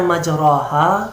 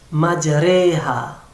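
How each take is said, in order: First: The r is followed by an open a-like vowel. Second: The r is followed by an e-like vowel. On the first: The speaker calls it wrong. "yang seharusnya kita baca majroha" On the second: The speaker calls it right. "Itu dia yang imalah"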